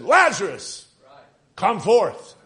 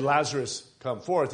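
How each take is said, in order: First: Loud, raised preacher's call. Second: Said in the usual way. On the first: Acted. Preacher acts out Jesus calling at the grave of Lazarus, loud voice. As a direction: call it out loudly, pausing between name and command. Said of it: "he spoke with a loud voice". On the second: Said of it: "Not just said".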